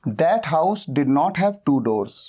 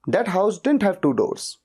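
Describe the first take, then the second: First: The words did and not are said separately. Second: Did and not merge into one contracted word. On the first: "डिड नॉट के साथ आप बना सकते हैं" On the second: "डिड नॉट की जगह पे डिडंट"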